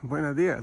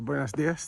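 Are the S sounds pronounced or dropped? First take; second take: dropped; pronounced. First: The S sounds are dropped, southern Spanish style. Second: The S sounds are clearly pronounced.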